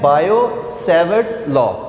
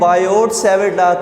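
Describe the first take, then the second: First: The t at the end of Biot is silent. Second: The t at the end of Biot is pronounced. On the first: The speaker calls it right. "ये जो टी है ये silent हो जाता है" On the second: The speaker calls it wrong. "कुछ कहते हैं"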